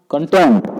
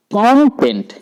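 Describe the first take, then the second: First: कंटेंट as kun-TENT, short first syllable, heavy TENT; stress on second syllable. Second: कॉन्टेंट with the first syllable punched high and loud; stress on first syllable. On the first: Teacher showing the verb form, second syllable stressed. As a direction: reduce the start of कंटेंट and punch the final syllable. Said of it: "pronunciation में stress change कर". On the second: Teacher showing students the noun form, first syllable stressed. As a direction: hit the opening syllable of कॉन्टेंट hard, then drop. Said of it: "कौन पर अगर हम stress दें".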